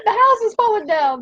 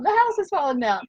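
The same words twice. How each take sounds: First: High, loud laughing outburst; mock alarm, laughing; laughing exclaim. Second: Said in the usual way. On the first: Real, not acted. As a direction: blurt it out through laughter. Laughing at construction noise.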